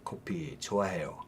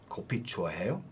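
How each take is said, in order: First: The pitch falls at the end. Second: The pitch rises at the end. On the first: It states that the speaker likes coffee. "statements uh, have falling intonation" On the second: It asks whether the listener likes coffee. "it'd just be rising intonation"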